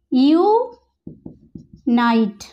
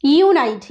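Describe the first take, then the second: First: ইউনাইট drawn out, long yoo at the start; slow long sound. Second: ইউনাইট starting with a yoo sound; long u sound. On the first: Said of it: "long সাউন্ডে ইউ এর উচ্চারণ". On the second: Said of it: "ইউটা কিভাবে শুরু হচ্ছে". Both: Shown as a demonstration.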